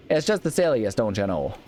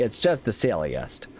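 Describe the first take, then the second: First: Put-on hardcore Midwestern accent. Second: Slow, drawn-out Midwestern delivery; "It's just the silliest" drawled slowly in a Midwestern accent. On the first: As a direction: go full Midwest, pitch up on "just". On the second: Pretend. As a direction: stretch it out like a Midwest mom. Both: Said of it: "really going hardcore on the whole Midwestern".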